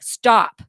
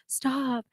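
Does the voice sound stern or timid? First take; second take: stern; timid. First: It is yelled firmly and sternly. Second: It is said weakly and timidly. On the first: The speaker calls it right. "you yell at your your attacker very sternly" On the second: The speaker calls it wrong. "You don't sound like"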